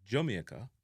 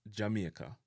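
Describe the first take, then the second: First: JAMAICA starting "Juh", as "Juh-mee-eh-ka"; variant pronunciation. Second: JAMAICA as "Ja-mye-ka", "ee-eh" in the middle; Jamaican pronunciation. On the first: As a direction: say Jamaica with "juh" for the first syllable. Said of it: "some people say". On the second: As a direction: say Jamaica the local way, "Jah-mee-eh-ka". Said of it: "how we say the word Jamaica". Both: Shown as a demonstration.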